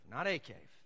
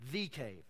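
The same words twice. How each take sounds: First: "a" said as a full AY, set apart; stress on A. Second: "the" drawn out as THEE, then falling; stress on THE. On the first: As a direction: lean on "a" to reject it. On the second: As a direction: punch "the" as the one and only. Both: Shown as a demonstration. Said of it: "The Hebrew there is not a cave".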